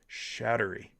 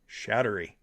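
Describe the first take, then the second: The two takes are said the same way.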